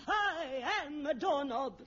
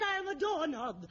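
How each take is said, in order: First: Slow, mock-tearful "I am a doorknob"; hammed-up tearful method acting. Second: Said in the usual way. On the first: Shown as a demonstration. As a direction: overplay the doorknob with a mock sob. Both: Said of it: "Imagine that you are a doorknob".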